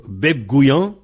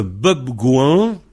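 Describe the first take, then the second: First: "beb gouillan" with an I glide; variante avec I. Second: "beb gouan" with no I in the second word; variante sans I. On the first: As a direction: slip a Y sound into "gouillan". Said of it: "il y a un I entre gou et an". (« beb gouillan » avec un I avant an) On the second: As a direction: go straight from "gou" to "an" in "gouan". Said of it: "ou beb gouillan". (« beb gouan » sans I) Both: Shown as a demonstration.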